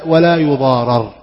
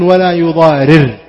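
First: The vowel before the final r is a. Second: The vowel before the final r is i. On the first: Harm must not be done to the writer and witness. "وإذا قلنا لا يضارر فالمعنى لا يدخل على الكاتب والشهيد الضرر" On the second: The writer and witness must not cause harm to others. "يعني الكاتب والشهيد لا يضارر، هو لا يضار، هو لا يقوم بإدخال الضرر على من استكتبه"

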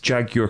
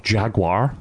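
First: It is said with a British pronunciation. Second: It is said with an American pronunciation.

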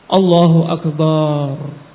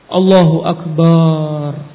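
Both takes have the same delivery.

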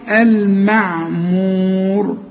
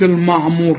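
First: Only the R sounds heavy; the rest is light. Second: The letters before the R sound heavy. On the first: The speaker calls it right. "شغل بالك الراء هي المفخمة" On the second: The speaker calls it wrong. "ما تقولش"

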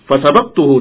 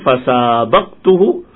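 First: The vowel after the s is short. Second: The vowel after the s is long. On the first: I beat him. "dan aku berhasil mengalahkannya" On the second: I raced against him. "Yang pertama sinnya panjang"

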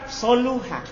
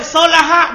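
First: The middle vowel is not an a sound. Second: The middle vowel is an a sound.

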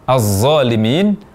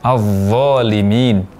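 First: The consonant becomes a plain, light z sound. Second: The consonant is a heavy, emphatic z sound. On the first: The speaker calls it wrong. "mengucapkan secara salah az-zalimin" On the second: The speaker calls it right. "Yang benar az-zalimin"

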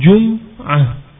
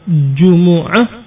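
First: The m has no vowel after it. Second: The m is followed by a u vowel. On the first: "taskin al-mim takhfifan" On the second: "jimnya dan mimnya dhammah"

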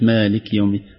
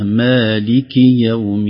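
First: The final vowel is weak, almost silent. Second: The final vowel is clear and full. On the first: The speaker calls it wrong. "كأنها كانت ضعيفة أقرب للسكون" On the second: The speaker calls it right. "خليها"

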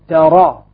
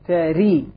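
First: The vowel after r is an open a. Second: The vowel after r is a full i. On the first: "عندي فتح" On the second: "عندي كسر"

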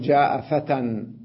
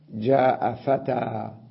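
First: The last word ends with an n sound. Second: The last word ends with a long a. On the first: The speaker calls it wrong. "هل أقول جاء فتى وأسكت؟ لا" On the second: The speaker calls it right. "ينبغي أن نحذف التنوين ونقف على الألف"

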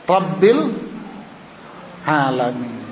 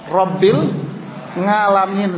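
First: The word starts with a throat sound. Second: The word starts with a nasal 'ng' sound. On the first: The speaker calls it right. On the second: The speaker calls it wrong.

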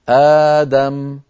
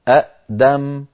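First: The stop becomes a long 'aa' vowel. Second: A glottal stop closes the first syllable. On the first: "تبدل الهمزة الثانية ألفا فتصير آدم" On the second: "اجتماع همزتين ثانيتهما ساكنة"

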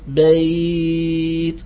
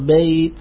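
First: The glide sound is held very long. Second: The glide sound is held briefly. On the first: "الإشباع" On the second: "بالقصر"

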